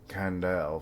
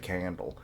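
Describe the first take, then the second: First: The name is said slowly with each syllable clear. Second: The name is said quickly, sounding like 'candle'. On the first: The speaker calls it right. "I have to say it like that" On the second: The speaker calls it wrong. "otherwise I just say Candle"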